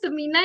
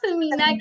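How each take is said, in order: First: It begins with a plain 's' sound. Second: It begins with a soft 'th' sound. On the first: It means a fat woman. The speaker calls it wrong. "समीना नहीं कहना" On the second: It means precious. The speaker calls it right. "बल्कि समीना कहना है"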